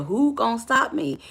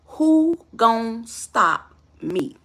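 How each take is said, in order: First: Said in the usual way. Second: Drawn out word by word, daring him; slow defiant challenge. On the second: Retold or imitated. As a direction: imitate a girlfriend's very slow, deliberate dare. Acted girlfriend's challenge, slowed for effect.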